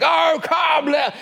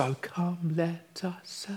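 First: High, bellowed carol line; football terrace shout. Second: Hushed, whispered carol line. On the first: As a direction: belt it out like a fan on the terraces. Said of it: "on the football terrace and you're shouting". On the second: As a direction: whisper it like a congregation starting softly. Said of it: "I love that we all whisper". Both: Shown as a demonstration.

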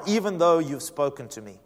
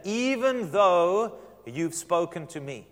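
First: Said in the usual way. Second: "Even though" drawn out very slowly; stress on "Even though". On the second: Shown as a demonstration. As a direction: stretch "Even though" for emphasis, then finish the phrase. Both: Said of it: "Listen to that".

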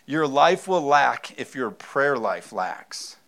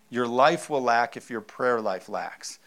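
First: Slow, louder, every word weighted; slow emphatic. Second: Said in the usual way. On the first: Shown as a demonstration. Pastor stressing his sermon point to the church, slow and emphatic. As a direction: drive the point home slowly. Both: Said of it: "repeated point line".

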